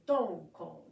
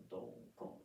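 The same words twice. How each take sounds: First: "don, kon" chanted hard and loud like a strong drum hit. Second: "don, kon" breathed out soft and unvoiced like a light tap; whispered don kon. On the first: Teacher chanting "don, kon" loudly for students. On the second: Teacher whispering "don, kon" as the soft take. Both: Shown as a demonstration. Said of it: "the count is gonna be".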